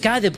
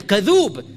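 First: Kadhib said with a short i in the last syllable; pronounced kadhib. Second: Kadhub with a long u in the last syllable; pronounced kadhub. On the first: Teacher showing the lesser form, kadhib with a short i. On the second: Teacher stressing the intensive form, kadhub with a long u. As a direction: stretch the u in kadhub. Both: Shown as a demonstration. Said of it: "not just kadhib".

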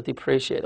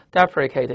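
First: "depreciate" as dee-PREE-shee-ate; contrasted pronunciation. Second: "deprecate" starting with a stressed DEP, then ri-kate; contrasted pronunciation. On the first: Teacher contrasting two lookalike words, "depreciate" with sh sound. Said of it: "就差一个I". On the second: Teacher contrasting two lookalike words, "deprecate" as DEP-ri-kate. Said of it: "你注意它的读音". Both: Shown as a demonstration.

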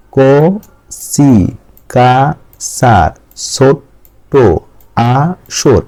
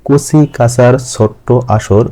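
First: ক, সি, কা, সা, ছোট্ট, আ, সর in isolated slow beats; syllable by syllable. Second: Slow, measured verse line; rhyme recitation. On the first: Teacher counting beats, ক, সি, কা, সা, ছোট্ট, আ, সর read syllable by syllable. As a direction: break the line apart, a gap after each of ক, সি, কা, সা, ছোট্ট, আ, সর. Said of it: "ভেঙে ভেঙে অক্ষর অনুসারে পড়ছি". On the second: Teacher reciting own rhyme to students, slow verse reading. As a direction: recite it slowly as flowing children's rhyme. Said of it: "আমি ছড়াটা একটু পাঠ করছি". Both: Shown as a demonstration.

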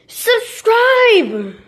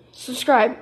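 First: Shouting. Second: Said in the usual way. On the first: Real, not acted. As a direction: yell it at the viewers, begging. Urging viewers to subscribe.

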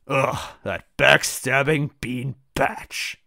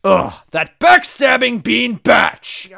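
First: Slow, drawn-out annoyed insult; simmering, stretched-out grievance; restrained disgust. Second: Slow, high, loud insult; full-blown drawn-out angry outburst; furious shout. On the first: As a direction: groan the insult slowly without shouting. First take of character's angry insult. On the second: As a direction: yell each word in outrage. Second take, angrier and louder. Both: Acted.

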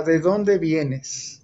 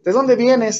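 First: Drawn out, every word very slow; father holding a belt, asking with slow menace. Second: Sharp, high, loud father's question; mock-stern father, louder and higher; stern demand. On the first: Retold or imitated. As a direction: let the threat hang in each word. Father waits with belt in hand. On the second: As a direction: snap the question at the kid. Father questions son's whereabouts.

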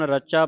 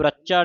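First: ਰਚਾ with a soft single ਚ; soft, undoubled consonant. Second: ਰੱਚਾ with a hard doubled ਚ; tight doubled consonant. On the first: Teacher showing the congregation the correct reading, ਰਚਾ with undoubled ਚ. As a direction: say ਰਚਾ lightly, without doubling the ਚ. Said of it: "ਇਹ ਹੁਣ ਰਚਾ ਪਾਠ ਪੋਲਾ ਹੈ". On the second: Teacher warning against a misreading, ਰੱਚਾ with doubled ਚ. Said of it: "ਇਹਨੂੰ ਰੱਚਾ ਨਹੀਂ ਕਹਿ ਦੇਣਾ". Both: Shown as a demonstration.

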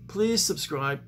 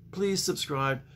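Both takes have the same delivery.

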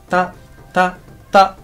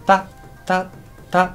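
Both takes have the same delivery.

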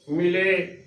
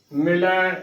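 First: ਮਿਲੇ with a close e ending; wrong pronunciation. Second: ਮਿਲੈ with an open ai ending; correct pronunciation. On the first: Teacher showing the mistake, ਮਿਲੇ ending in e. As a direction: end ਮਿਲੇ narrow on ay. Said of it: "ਗਲਤ ਉਚਾਰਨ ਹੋਵੇਗਾ". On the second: Teacher showing the right reading, ਮਿਲੈ ending in ai. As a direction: end ਮਿਲੈ wide on ai. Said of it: "ਇਹ ਸਹੀ ਉਚਾਰਨ ਹੈ". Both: Shown as a demonstration.

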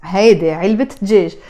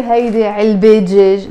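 First: علبة linked as "ilbit" into دجاج; te marbuta pronounced. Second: علبة wrongly left open as "ilbe" before دجاج; te marbuta dropped. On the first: Teacher corrects the mistake: علبة دجاج with the T sounded. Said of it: "you have to pronounce the te marbuta". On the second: Teacher shows learners the mistake: علبة دجاج without the T. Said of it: "We don't say". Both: Shown as a demonstration.

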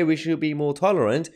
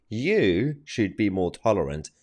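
First: Higher-pitched echo of their claim; raised voice, setting up a retort; quoting back accusingly. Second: Slow retort with "You" drawn out; deliberate, pointed emphasis on "You"; stress on You. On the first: Retold or imitated. Host quotes back opponents' claim. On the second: Real, not acted. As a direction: turn it back on them, leaning on "You". Host turns claim on opponents.

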